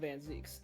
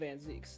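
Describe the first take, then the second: First: The name's vowel sounds like 'ee'. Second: The name's vowel sounds like 'ee'.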